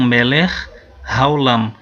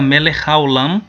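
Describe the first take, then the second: First: It is slow, with each sound said separately. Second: It is fast, with the two words joined. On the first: "se você for falar pausadamente, claro que você tem que fazer o som de cada um" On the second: "Como eu estou falando rápido, então o som do Raf meio que se junta com o Re"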